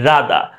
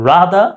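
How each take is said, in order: First: It is said with a British accent. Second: It is said with an American accent.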